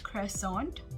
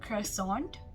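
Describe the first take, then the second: First: It is said with an American pronunciation. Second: The same.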